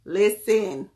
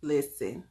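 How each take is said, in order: First: A louder, falling "Listen."; a punchy "Listen." to grab attention; emphatic. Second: Said in the usual way. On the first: Real, not acted. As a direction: call the room to attention with "Listen.".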